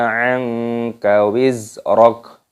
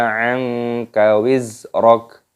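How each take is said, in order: Both takes have the same delivery.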